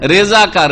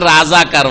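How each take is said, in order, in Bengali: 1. প্রথম শব্দাংশে 'e' স্বরধ্বনি আছে। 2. প্রথম শব্দাংশে 'a' স্বরধ্বনি আছে। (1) "উর্দুতে হচ্ছে রেজাকার" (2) "বাঙালিরা রেজাকার পড়তে পারেনি, ওটাকে কি করেছে, রাজাকার বানিয়েছে"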